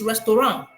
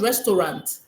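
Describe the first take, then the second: First: It has French pronunciation with the final sound dropped. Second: It has English pronunciation with the final sound voiced. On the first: "without the last word being pronounced" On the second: "the pronunciation of the word restaurant in the English dictionary"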